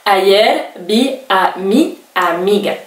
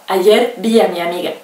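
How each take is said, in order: First: The words are said separately without linking vowels. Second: The vowels merge so the words run together. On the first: The speaker calls it wrong. "On va pas dire" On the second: The speaker calls it right. "ça va devenir comme un seul mot"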